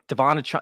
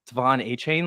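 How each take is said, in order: First: The surname's last syllable does not rhyme with 'train'. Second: The surname's last syllable rhymes with 'train'. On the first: The player himself says it this way. "it just doesn't feel right" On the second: This was the pronunciation everyone used at first. "I just try to say Devon Achane"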